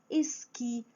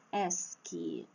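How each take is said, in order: First: "esqui" as es-QUI; stress on last syllable. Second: "Esqui" as ÉS-qui, open E, low weak ending; wrong stress on first syllable. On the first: Teacher lists examples, "esqui" stressed on final QUI. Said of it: "a última sílaba é a forte". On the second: Teacher shows what nobody says, "Esqui" stressed on ÉS. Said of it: "ninguém fala assim". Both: Shown as a demonstration.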